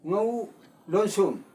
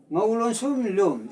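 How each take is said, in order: First: ꯉꯧ ꯂꯣꯟꯁꯨꯝ said with a rising tone; teacher demonstrating the rising tone on ꯉꯧ ꯂꯣꯟꯁꯨꯝ. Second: ꯉꯧ ꯂꯣꯟꯁꯨꯝ ꯂꯨꯝ said quickly with a falling tone; teacher contrasting it with a quick falling tone. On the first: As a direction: let ꯉꯧ ꯂꯣꯟꯁꯨꯝ lift upward. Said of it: "is rising tone". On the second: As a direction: drop the pitch through ꯉꯧ ꯂꯣꯟꯁꯨꯝ ꯂꯨꯝ. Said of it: "this is falling tone". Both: Shown as a demonstration.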